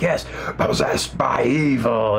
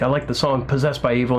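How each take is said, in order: First: Slow, rasping whisper of the title; eerie whisper. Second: Said in the usual way. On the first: Retold or imitated. Singer echoes song title.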